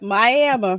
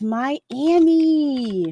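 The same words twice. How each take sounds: First: Miami is said with a regional, nonstandard pronunciation. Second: Miami is said with the usual, standard pronunciation. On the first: This is how an older relative says it. The speaker calls it wrong. "That's exactly what she would do" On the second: This is the usual way to say it. The speaker calls it right. "no, it's Miami"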